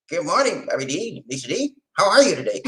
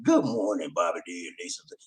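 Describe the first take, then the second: First: Lightly voiced Lamont, a bit softer; mild imitation of Lamont's hello. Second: Lower, softer and fast greeting; a hint of Lamont saying good morning; Lamont's voice. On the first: Host does his Lamont voice greeting the hosts, softer. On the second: Host quotes caller Lamont's morning greeting, lower and softer. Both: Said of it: "I gotta do my Lamont voice".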